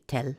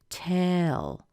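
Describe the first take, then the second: First: The word is said quickly and clipped. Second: The word is drawn out with an extra vowel. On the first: The speaker calls it wrong. "If you if you said this really quickly, you'd say tell" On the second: The speaker calls it right. "it's a little more elongated. It's got that extra sound in there"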